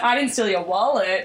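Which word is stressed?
wallet. The stress falls on the word wallet. I stole something else of yours. "but I stole something else"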